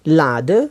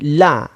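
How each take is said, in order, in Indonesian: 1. Bunyi d diucapkan. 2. Bunyi d dihilangkan.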